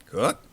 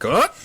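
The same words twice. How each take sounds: First: Said in the usual way. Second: Higher, louder outraged echo; indignant surprise. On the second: Acted. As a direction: scoff at the very question.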